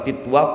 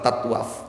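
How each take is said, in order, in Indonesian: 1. Suku kata pertama memiliki vokal 'i'. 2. Suku kata pertama memiliki vokal 'a'. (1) "Boleh dibaca titwaf" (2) "boleh dibaca tatwaf"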